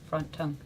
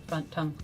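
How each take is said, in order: The two takes are said the same way.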